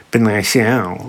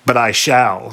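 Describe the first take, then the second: First: Lightly mocking sing-song echo; sing-songy mutter. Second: Said in the usual way. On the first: A narrator's reading. Sphinx mimics Oedipus's boast, sing-songy mutter. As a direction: parrot it back under your breath. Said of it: "muttered the Sphinx in a sing-songy tone".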